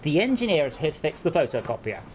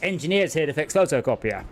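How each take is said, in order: First: The word 'the' is said in full. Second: The word 'the' is left out entirely. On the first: This is how people say it further south. "here, where you are, it is" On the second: This is how people say it in the speaker's area. "where I am, it's"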